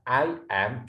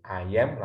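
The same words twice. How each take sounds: First: "I am" as two distinct words; slow, unlinked "I am"; separated pronunciation. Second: "I am" run straight together as "ayem"; "I am" linked with no gap; linked pronunciation. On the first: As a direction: say "ai", then "em" for "I am". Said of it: "boleh dibaca I am atau I am". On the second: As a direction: say "I am" in one go. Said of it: "langsung boleh". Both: Shown as a demonstration.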